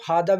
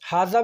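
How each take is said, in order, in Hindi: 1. दूसरा व्यंजन 'd' की आवाज़ है। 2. दूसरा व्यंजन 'z' की आवाज़ है। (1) "हादा भी बोल सकते हो" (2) "हाजा भी बोल सकते हो"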